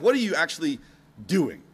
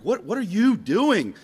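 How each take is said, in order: First: "What" hit first, then "actually" pressed, a pause before "doing?"; "What are you actually ... doing?" with a held beat before "doing"; stress on actually. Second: "you" leaned on, slow and drawn out; slow, weighted "What, what are you doing?" with "you" hit hardest; stress on you. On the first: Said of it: "the other emphasis would be like". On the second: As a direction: ask it slowly, pressing on "you". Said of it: "Or the other emphasis would be like". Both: Shown as a demonstration.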